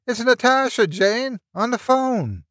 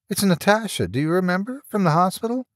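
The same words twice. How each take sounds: First: High-pitched call to someone down the hall; yelling down hallway. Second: Higher, lightly acted woman's voice; female caller. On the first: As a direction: call out excitedly, voice pitched right up. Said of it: "He yelled down the hallway to Jane". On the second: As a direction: introduce yourself in a high, questioning lilt. Natasha introduces herself by phone. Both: A narrator's reading.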